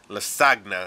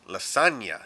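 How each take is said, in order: First: The gn is said with a hard g sound. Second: The gn is said as a ny sound. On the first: The speaker calls it wrong. "it's not lasagna" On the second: The speaker calls it right. "makes a piñata ng noise"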